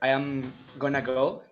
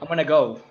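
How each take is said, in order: First: Going to is reduced, but I am stays full. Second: Both I am and going to are reduced. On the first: "you don't say" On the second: "You say"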